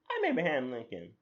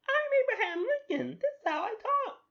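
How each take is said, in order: First: Said in the usual way. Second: Very high, loud squeaky character voice; high-pitched annoying voice. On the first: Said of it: "I think I already lost". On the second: Acted. Host claims to be Lincoln, absurdly high annoying voice. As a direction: squeal it at the top of your range. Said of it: "that high pitch annoying voice".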